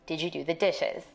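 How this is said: The voice stays level or falls at the end.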